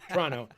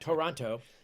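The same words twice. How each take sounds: First: It is said the Canadian way, like Tronno. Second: It is said the American way, all syllables. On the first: The speaker calls it right. "pronounce that the Canadian way, by the way. It's T R O N N O" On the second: The speaker calls it wrong. "not Toronto, as Americans pronounce it"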